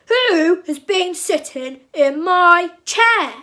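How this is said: It is said in a big, grumpy voice. "he cried in his big grumpy voice"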